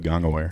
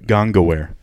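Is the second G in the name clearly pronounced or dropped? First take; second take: dropped; clear. First: The second G sound is slurred or dropped. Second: The second G sound is clearly enunciated. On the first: The speaker calls it wrong. "it can be pretty easy to just go Gongaware" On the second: The speaker calls it right. "how to do it right"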